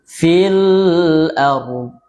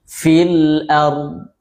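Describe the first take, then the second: First: The L sound is released and drawn out long. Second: The L sound has a normal, moderate length. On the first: The speaker calls it wrong. "terlalu lepas dan memanjang" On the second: The speaker calls it right. "itu kan normal, lamnya normal"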